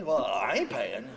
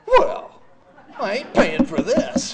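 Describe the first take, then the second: First: Lower, slow, flat-out refusal; stubborn. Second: A much higher, louder outburst on Well, then slow and defiant; furious refusal. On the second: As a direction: blurt it out at the nurse, indignant. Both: Retold or imitated. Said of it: "Oh, I was furious".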